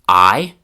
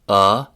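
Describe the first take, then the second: First: It is said with the full 'eye' vowel. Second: It is said as a short 'uh' vowel. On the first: "starting with the most classroom-like"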